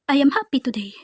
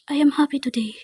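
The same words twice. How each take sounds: First: The speaker sounds genuinely happy. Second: The speaker sounds flat and unhappy.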